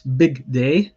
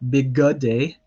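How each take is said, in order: First: No vowel is heard between the g and d. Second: An extra short vowel separates the g and d. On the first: The speaker calls it right. "that shva here is silent. It's big day" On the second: The speaker calls it wrong. "not big good day"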